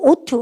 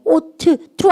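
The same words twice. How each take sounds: First: "ought to" as one word, "oh-tu"; run together. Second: "ought to" split into "ot-tu", both t sounds released; wrong, T doubled. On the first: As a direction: merge the two t's in "ought to" into one. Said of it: "한단어로 얘기하시면 돼요". ("ought to"를 한 단어처럼 "오투"로 붙여서) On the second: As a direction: say "ought to" as two words with separate t's. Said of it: "to로 끝나고 to로 시작하니까". ("ought to"를 "오트 투"로 끊어서) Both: Shown as a demonstration.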